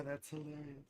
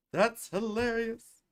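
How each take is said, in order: First: Very soft, lower mutter; quiet aside. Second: Slow, stretched emphasis on each word; drawn-out reaction. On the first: Host reacting to a chat comment, very softly. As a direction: say it under your breath. Reads chat, then repeats it louder. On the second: Host reacting to a chat comment, slowly drawn out. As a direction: draw it out with full voice. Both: Real, not acted.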